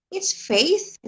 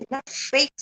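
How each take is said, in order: First: "faith" said high and loud; loud correct "faith". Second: "faith" said the wrong way; loud wrong "faith". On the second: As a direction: mimic the mistaken "faith". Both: Shown as a demonstration.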